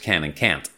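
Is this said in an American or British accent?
American. It is said in an American accent.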